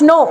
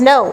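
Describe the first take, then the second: First: No with a single Bengali o; pure o. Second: No gliding as "nou"; ou diphthong. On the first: Teacher shows what to avoid, pure o. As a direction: say no without any glide. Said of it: "it's not no". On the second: Teacher explains English lacks pure o, ou diphthong. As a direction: let the vowel in no slide to u. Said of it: "ও নেই ইংরেজিতে". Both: Shown as a demonstration.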